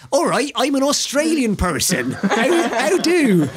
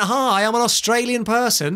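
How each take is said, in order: First: Higher, mock attempt at an Australian accent; hammed-up bad Australian greeting; imitating his bad Australian accent. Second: Hammed-up Australian self-introduction; mock Australian accent. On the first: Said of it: "Or in his case". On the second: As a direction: put on an obvious Australian accent. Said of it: "If he went".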